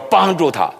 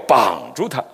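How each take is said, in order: First: It is said with standard Mandarin tones. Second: It is said with a Shandong-accented tone. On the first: The wife helps her husband. The speaker calls it right. "我说帮助他" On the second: The wife ties her husband down. The speaker calls it wrong. "山东人读这句话容易读绑住他"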